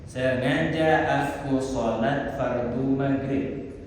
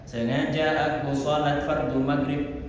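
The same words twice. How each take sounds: First: The phrase is said at a normal pace. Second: The phrase is said at a fast pace.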